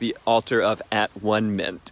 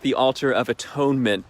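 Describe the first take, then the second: First: Atonement is split into at, one, ment. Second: Atonement is said as one smooth word. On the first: "he also pronounced it and would describe it as" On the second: "he called it the altar of atonement"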